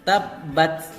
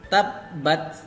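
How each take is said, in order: Both takes have the same delivery.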